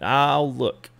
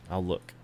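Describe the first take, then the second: First: Said in the usual way. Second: Repeated under the breath, much softer; muttered to himself. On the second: Real, not acted. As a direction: say it again to yourself, quietly. Says it twice, second softer.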